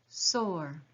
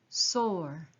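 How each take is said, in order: Both takes have the same delivery.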